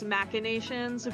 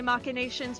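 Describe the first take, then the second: First: The first syllable has the standard pronunciation. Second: The first syllable is pronounced like 'Mach'. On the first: This is the usual dictionary form. "the real pronunciation is machinations" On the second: It puns on the speaker's own nickname. "I go by Mach, so it's supposed to be a play on the word"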